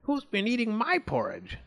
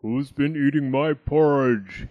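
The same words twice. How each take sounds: First: High, indignant mother voice; indignant Mummy Bear. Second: Loud, growly big bear; growling Daddy Bear. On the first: Mummy Bear finds her porridge eaten, high indignation. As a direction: call it out higher, without real shouting. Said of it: "she shouted". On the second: Daddy Bear finds his porridge eaten, growling. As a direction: growl it out loudly. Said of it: "he growled". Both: A narrator's reading.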